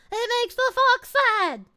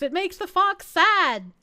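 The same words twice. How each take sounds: First: Higher, whiny mock complaint; playfully wounded, pitched up; mock plaintive. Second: Said in the usual way. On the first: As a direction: pout it out in a raised voice. Repeats the complaint more plaintively.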